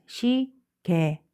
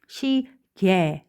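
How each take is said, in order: First: 시, 개 said slowly as si-ge; 시, 개 drawn out, second syllable plain ge. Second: 시, 개 said slowly as si-gye; 시, 개 drawn out, second syllable gye; 시계 with y-glide. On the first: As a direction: stretch 시, 개 syllable by syllable with no y-glide. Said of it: "해도 된다고요". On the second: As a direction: stretch 시, 개 syllable by syllable, gliding into gye. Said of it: "두 개 다 써도 돼요". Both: Shown as a demonstration.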